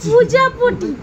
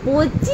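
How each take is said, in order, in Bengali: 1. শব্দটির সব অংশ উচ্চারণ করে বলা হয়েছে। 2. শব্দটি দুই অংশে ছোট করে বলা হয়েছে। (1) "পুরো পুরো উচ্চারণ করতে হবে তো" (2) "এইটা পচি না"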